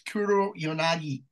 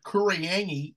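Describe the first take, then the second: First: Every syllable of the name is said clearly. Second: The name is run together into fewer syllables. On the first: The speaker calls it right. "it's Kuro Yanagi. Get the fucking pronunciation right" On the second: The speaker calls it wrong. "call this like Kuriangi, no"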